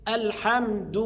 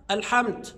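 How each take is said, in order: First: "الحمد" with a clear voiced d and u; voiced dal. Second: "الحمد" ending in a t sound; dal as ta. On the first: Shown as a demonstration. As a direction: end "الحمد" on du, not t. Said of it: "أمال الصواب إيه؟". (نطق "الحمد" بدال واضحة مضمومة) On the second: Retold or imitated. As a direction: devoice the د of "الحمد" to t. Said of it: "ينطق الدال تاء". (نطق دال "الحمد" تاءً)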